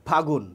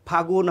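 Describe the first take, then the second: The two takes are said the same way.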